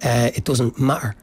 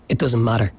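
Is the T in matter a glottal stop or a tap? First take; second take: glottal; tap. First: The T in matter is a glottal stop. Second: The T in matter is a quick tap. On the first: "a working class accent will say ... turn it into a glottal sound at the back of their throat" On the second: "alveolar tap ... that's a kind of middle ground"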